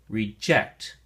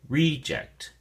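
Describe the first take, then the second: First: The stress is on the second syllable. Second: The stress is on the first syllable. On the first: It is a verb meaning to refuse something. "If you use it as a verb, ... the emphasis or stress is on the second syllable" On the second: It is a noun naming something refused. "the noun form, ... the emphasis or stress is on the first syllable"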